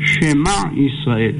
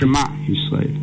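First: A short vowel is heard after the first sound. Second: No vowel is heard after the first sound. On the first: The speaker calls it right. "זה שבע נע, שמע ישראל" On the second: The speaker calls it wrong. "לא שמע ישראל"

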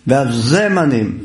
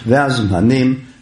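First: A short vowel is heard between z and m. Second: The z and m run together with no vowel. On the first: The speaker calls it right. "זה זן דגושה ושווה נע, ולא שווה נח" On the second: The speaker calls it wrong. "אז כאן גם כן טעות"

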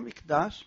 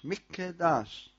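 First: The k runs straight into the d. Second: A short vowel follows a doubled k. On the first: The speaker calls it wrong. "לא מקדש" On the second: The speaker calls it right. "צריך להוציא את הקוף, זה שווה נע, ודגושה"

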